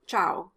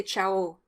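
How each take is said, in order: First: Ciao stressed on the A, Italian style. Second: Ciao with the stress on its last vowel, French style. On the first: Teacher shows the Italian ciao to avoid. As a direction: lean on the A of ciao. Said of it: "as opposed to the A in Italian". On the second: Teacher contrasts French ciao with Italian. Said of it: "the O is stressed at the end of the word". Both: Shown as a demonstration.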